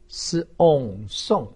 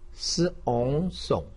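First: The pitch falls sharply from high. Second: The pitch dips low, then rises. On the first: "四声" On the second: "三声"

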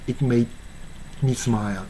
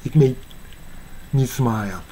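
The two takes are said the same way.

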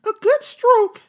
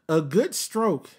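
First: It is said in a put-on imitating voice. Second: It is said in the reader's normal voice.

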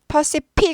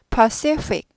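First: Both consonants are said as P sounds. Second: A clear P sound, then a clear F sound. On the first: The speaker calls it wrong. "둘 다 P 하시기 쉬운데 절대 아니고" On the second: The speaker calls it right. "P하고 F를 확실하게 구분해 주셔야 돼요"

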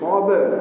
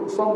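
First: The final consonants are released with a bouncing echo. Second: The final consonants are swallowed without an echo. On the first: The speaker calls it right. "Huruf ba ni kena bunyi" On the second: The speaker calls it wrong. "Jangan sab tak bunyi sab bukan gitu"

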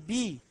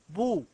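First: The first syllable has the vowel i. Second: The first syllable has the vowel u. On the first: The speaker calls it wrong. "ولا تقل بي" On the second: The speaker calls it right.

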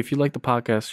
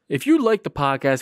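First: It is said in a flat, low-energy way. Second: It is said in an enthusiastic, energetic way. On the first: The speaker calls it wrong. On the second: The speaker calls it right.

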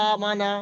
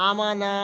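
No difference in how they are said.

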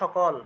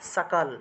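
First: The first sound is a 'sh' sound. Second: The first sound is a clear 's' sound. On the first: This is the everyday Bengali way of saying it. "বাংলায় বললে তো সকল" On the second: This is the Sanskrit way of saying it. "কিন্তু সংস্কৃতে বললে সাকাল"

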